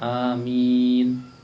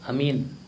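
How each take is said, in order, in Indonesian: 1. Vokal akhir dipanjangkan selama beberapa ketukan. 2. Vokal akhir tidak dipanjangkan. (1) "Yang benar amin" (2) "Yang salah itu amin"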